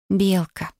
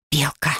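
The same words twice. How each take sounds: First: Sweetly supplying a name; affectionate prompt. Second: Spiteful hiss of a name; angry hiss. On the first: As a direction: offer it gently, with teasing tenderness. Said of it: "ласково подсказала я". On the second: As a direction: hiss it crossly, without raising the voice. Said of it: "злобно прошипела я". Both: A narrator's reading.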